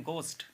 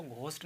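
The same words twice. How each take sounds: First: गोस्ट with a plain hard G; silent H. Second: घोस्ट with aspirated GH; sounded H. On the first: Teacher giving the reading, गोस्ट with silent H. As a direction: say गोस्ट, no puff after G. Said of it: "इसको पढ़ते हैं गोस्ट". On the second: Teacher showing what not to say, घोस्ट with H. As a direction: say घोस्ट with a puff after G. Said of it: "घोस्ट नहीं पढ़ते हैं". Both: Shown as a demonstration.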